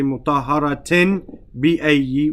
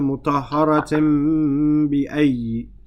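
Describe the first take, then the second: First: The n before the b is a clear n. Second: The n before the b is nasalized. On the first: The speaker calls it wrong. "You don't say mutahharatin bi-ayyi with a clear noon" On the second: The speaker calls it right. "you bring it through your nose with a gunna"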